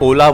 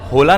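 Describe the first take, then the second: First: The word begins with no h sound. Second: The word begins with an h sound. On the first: The speaker calls it right. "एच silent होता है, इसे ओला बोला जाता है" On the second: The speaker calls it wrong. "Spanish लोग इसे होला नहीं बोलते"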